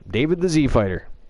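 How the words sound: The letter is said zee, American style.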